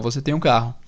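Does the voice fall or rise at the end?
falls. The voice falls at the end. It states a fact. "É uma frase positiva"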